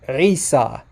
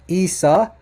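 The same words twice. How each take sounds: First: It begins with a guttural throat consonant. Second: It begins directly with a plain vowel. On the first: The speaker calls it right. "Listen to that to that guttural ayn at the beginning" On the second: The speaker calls it wrong. "now this would be Isa"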